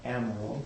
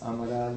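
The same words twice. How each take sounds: First: The name is pronounced in an English way. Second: The name is pronounced in a Portuguese way. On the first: The speaker calls it wrong. "not Amaral" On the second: The speaker calls it right. "Joan's background is Portuguese. Hence, Amaral"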